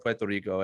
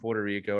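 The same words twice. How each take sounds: First: The R sounds are rolled, Spanish style. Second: The R sounds are plain English R sounds.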